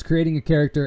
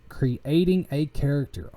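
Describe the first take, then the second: First: Said in the usual way. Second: CREATING drawn out syllable by syllable, higher pitch; slowly and deliberately sound out "creating a character"; careful over-enunciation. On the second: Real, not acted. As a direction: stretch "creating" into clear, separate syllables after tripping on it. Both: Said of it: "I wish I could speak right".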